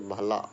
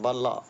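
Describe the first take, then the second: First: The first consonant is an aspirated bh. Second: The first consonant is a plain b. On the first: The speaker calls it right. "बल्ला आएगा ऐसे" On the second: The speaker calls it wrong. "बल्ला ऐसे नहीं आएगा भाई"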